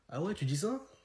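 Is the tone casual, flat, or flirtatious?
flirtatious. It is said in a teasing, flirtatious way. "Quand c'est une meuf, vous le dites pas comme ça"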